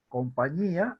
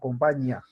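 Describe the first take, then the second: First: The i and a form two separate syllables. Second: The i and a merge into one syllable. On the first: The speaker calls it right. "hay una, un hiato ahí" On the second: The speaker calls it wrong. "si le quitara el acento ... se formaría un diptongo"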